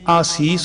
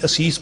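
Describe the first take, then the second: First: The first vowel is long. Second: The first vowel is short. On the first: The speaker calls it right. "ਜਿਵੇਂ ਆਸੀਸ ਹੋਵੇ" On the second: The speaker calls it wrong. "ਅਸੀਂ ਅਸੀਸ ਪੜ੍ਹ ਜਾਂਦੇ ਹਾਂ"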